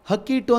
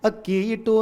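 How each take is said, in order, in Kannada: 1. ಮೊದಲ ಪದ h ಶಬ್ದದಿಂದ ಶುರುವಾಗುತ್ತದೆ. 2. ಮೊದಲ ಪದ ಸ್ವರದಿಂದ ಶುರುವಾಗುತ್ತದೆ, h ಇಲ್ಲ. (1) "ಹಕ್ಕಿ ಇಟ್ಟು ಅಂತೀವ ನಾವಲ್ಲಿ" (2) "ಒಂದು ಧಾನ್ಯದ ಹೆಸರಲ್ವ ಅಕ್ಕಿ"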